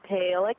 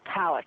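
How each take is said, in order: First: The first syllable sounds like 'pail'. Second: The first syllable sounds like 'pal'. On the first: The speaker calls it wrong. "if it was Palix, it would have to be like P A I L E X" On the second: The speaker calls it right. "Pretty certain that it's Palix"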